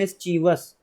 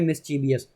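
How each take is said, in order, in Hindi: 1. इस शब्द में तीन अक्षर हैं, और यह '-vus' पर खत्म होता है। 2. इस शब्द में चार अक्षर हैं, और यह '-vee-us' पर खत्म होता है। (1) "जिसे बोलते हैं मिस्चीवस" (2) "यहाँ पर हम पढ़ रहे हैं मिस्चीवियस, तो हमसे गलती हो जाती है"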